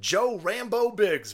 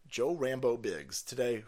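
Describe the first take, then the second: First: Slow, high stress on "Rambo"; stressed nickname. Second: Said in the usual way. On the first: Real, not acted. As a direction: drag out "Rambo" with relish. Savoring the nickname.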